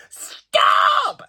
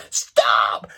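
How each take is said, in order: First: High, loud mock yell of stop; retold shout. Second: Retold shout. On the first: Tourists yelling at her on the staircase, high mock shout. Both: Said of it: "they just started shouting".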